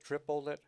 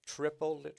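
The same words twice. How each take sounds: First: "triple lit" chanted with the weight on "triple"; counting the triplet again. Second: "triple lit" chanted with the beat on "triple"; counting the triplet. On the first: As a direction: repeat "triple lit" in rhythm, hitting "triple". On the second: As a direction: lean on "triple", tap out "lit". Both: Shown as a demonstration. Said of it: "And then the triplet".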